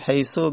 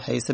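First: The word ends in a short u vowel. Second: The word ends in a short i vowel. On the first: "حیثو به دم میخونن" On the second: "حیثه به کسر"

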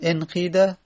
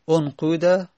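First: The vowel after the q is an i. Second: The vowel after the q is a u. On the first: "بر لغت قیله بگیم انقیده" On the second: "بر لغت همون قوله"

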